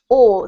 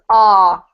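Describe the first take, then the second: First: The vowel is a rounded 'aw' sound. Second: The vowel is an open 'ah' sound. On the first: "in British accent, it's pronounced aw" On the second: "American accent is ah"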